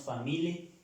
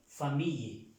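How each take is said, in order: First: "famille" with a hard L, fa-MEE-le; rejected reading "famile", no y sound; wrong pronunciation. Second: "famille" with a y sound, fa-MEE-ye; falling "fa-MEE-ye", no L sound; correct French pronunciation. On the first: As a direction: say "famille" as fa-mi-LE, double L as plain L. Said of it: "No decimos famille". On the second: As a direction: say "famille" with double L as y. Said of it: "sino famille". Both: Shown as a demonstration.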